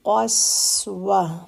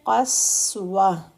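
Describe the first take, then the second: The two takes are said the same way.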